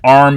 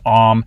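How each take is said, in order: First: The R sound after the vowel is pronounced. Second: The R is dropped, leaving a long vowel.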